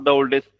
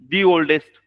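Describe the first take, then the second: First: "The" is said with a short "thuh" vowel. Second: "The" is said with a long "thee" vowel. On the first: The speaker calls it wrong. "Not द oldest" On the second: The speaker calls it right. "कारण त्याची ... उच्चाराची सुरुवात ही ... स्वराने होती, म्हणून दी oldest"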